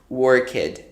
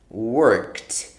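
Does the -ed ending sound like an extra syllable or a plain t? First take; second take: extra syllable; plain t. First: The ending is not a plain t sound. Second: The ending is a plain t sound. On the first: The speaker calls it wrong. "this is not right. Worked, no" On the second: The speaker calls it right. "the ed becomes a T. It sounds like T"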